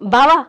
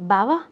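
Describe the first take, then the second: First: It is said with a forceful, complaining intensity. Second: It is said in a soft, affectionate way. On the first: The speaker is annoyed and complaining. "ఇక్కడ ఇంకొంచెం intensity కావాలి" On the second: The speaker is fond and coaxing. "దీన్ని ప్రేమగా చెప్పండి"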